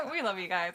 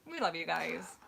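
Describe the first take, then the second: First: Said through a laugh. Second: Said in the usual way. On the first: Real, not acted. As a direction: let the laugh spill into the words.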